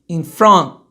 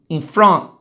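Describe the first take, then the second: No difference in how they are said.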